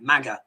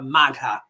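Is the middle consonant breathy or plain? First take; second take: plain; breathy. First: The g is plain with no h. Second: The g is followed by a breathy h.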